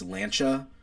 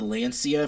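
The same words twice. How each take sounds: First: "Lancia" said the Italian way, LAN-chah; "Lancia" corrected, c as ch, LAN-chah; correct pronunciation. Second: "Lancia" the way he always said it, lan-SEE-uh; old wrong way. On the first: Fixing the brand name Euros taught him, "Lancia" as LAN-chah. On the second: Owning up to his lifelong mispronunciation, "Lancia" as lan-SEE-uh. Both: Shown as a demonstration. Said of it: "I said this company's brand wrong".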